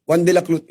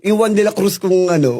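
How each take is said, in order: First: "One de la Clut" with the r of Cruz said as an l and the z as a t; mock lisp. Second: Said in the usual way. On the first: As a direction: lisp it as "Clut", poking fun at his own speech. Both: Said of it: "Dahil bulol nga ako".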